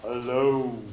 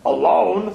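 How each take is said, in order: First: Said in the usual way. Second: Alone? asked as Toad, a bit louder and puzzled. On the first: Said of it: "And this story is called". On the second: Acted. Toad puzzling over Frog's note, baffled question. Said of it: "said Toad".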